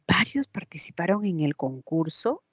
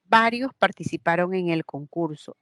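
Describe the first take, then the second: First: The pitch rises at the end. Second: The pitch falls at the end. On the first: It asks a yes-or-no question. "la puedo convertir a pregunta" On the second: It states a fact. "Está afirmando. La inflexión es hacia abajo"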